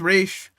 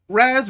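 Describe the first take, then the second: First: The name ends with a sh sound. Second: The name ends with a z sound. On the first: This is closer to the character's supposed origin. "Raish is more accurate" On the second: This is the habitual pronunciation. "I've always said Raz"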